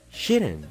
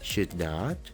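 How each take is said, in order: First: It is said as one contracted word. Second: It is said as two full words. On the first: The speaker calls it right. "mejor di" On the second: The speaker calls it wrong. "En vez de decir"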